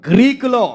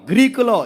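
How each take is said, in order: The two takes are said the same way.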